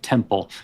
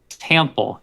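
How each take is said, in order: First: The word is said with standard pronunciation. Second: The word is said with a foreign accent. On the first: The word sounds as it is supposed to. The speaker calls it right. "the word it's supposed to be" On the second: The word sounds unlike the intended word. The speaker calls it wrong. "while he was still learning an accent"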